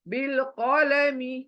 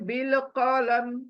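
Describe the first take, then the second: First: The phrase ends with a final vowel. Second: The phrase ends on a bare consonant. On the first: The speaker calls it wrong. "मी आया ना, लेकिन full stop आया है, मी नहीं पढ़ेंगे" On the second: The speaker calls it right. "मीम साकिन बना देंगे"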